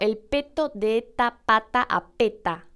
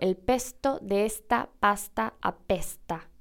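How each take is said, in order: First: No s sound comes before each t. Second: A full s sound comes before each t. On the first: "Pero tampoco digo el peto de esta pata apeta" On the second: "que sería por ahí lo que muchos esperarían oír"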